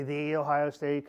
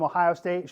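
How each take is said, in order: First: Slow "the", said as a drawn-out "thee"; stress on "the". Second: Said in the usual way. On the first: Retold or imitated. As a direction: set "the" apart as "thee" before Ohio State. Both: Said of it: "She'll say".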